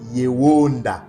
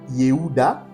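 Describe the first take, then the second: First: The name has a w sound in the middle. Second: The name has an h sound in the middle. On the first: This is the ancestral, authentic pronunciation. The speaker calls it right. "nos pères le prononçaient Yewonda" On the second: This is the later, received pronunciation. The speaker calls it wrong. "Edom le prononce Ye, Yehuda, mais ce n'est pas Yehuda"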